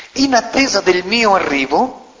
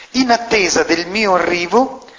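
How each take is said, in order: Both takes have the same delivery.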